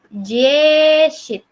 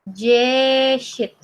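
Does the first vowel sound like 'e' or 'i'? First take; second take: i; i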